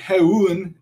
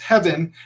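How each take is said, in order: First: The middle sound is a vowel, not v. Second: The middle sound is a v consonant. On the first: The speaker calls it wrong. "We're not saying heun" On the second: The speaker calls it right. "it's heaven"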